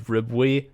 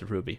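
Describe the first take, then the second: First: The name sounds like 'rib-way'. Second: The name sounds like the gem 'ruby'. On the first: The speaker calls it wrong. "I thought it was Ribwe uh, myself" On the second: The speaker calls it right. "he says in the video it's Ruby"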